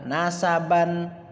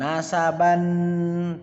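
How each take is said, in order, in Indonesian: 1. Vokal suku kata terakhir pendek. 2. Vokal suku kata terakhir dipanjangkan. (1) "Yang benar adalah nasaban" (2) "bukan nasaban, tidak"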